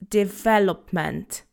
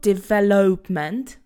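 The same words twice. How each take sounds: First: The second vowel is reduced, with no O. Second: The second vowel is a full O sound. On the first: The speaker calls it right. "It's development" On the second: The speaker calls it wrong. "So there is no O sound. It's not development"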